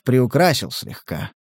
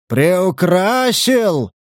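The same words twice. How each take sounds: First: Said in the usual way. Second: "Приукрасил" higher and drawn out as a challenging question; incredulous echo. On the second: Acted. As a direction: throw "Приукрасил" back slowly, in disbelief. Indignant echo of the collector's word.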